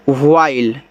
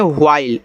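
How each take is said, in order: First: व्हाइल said as "ह्वाइल", breathy h up front; careful model word. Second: Said in the usual way. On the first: Shown as a demonstration. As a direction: pronounce व्हाइल slowly for students to copy. (व्हाइल का साफ़ उच्चारण करके दिखाना) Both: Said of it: "ऐसे".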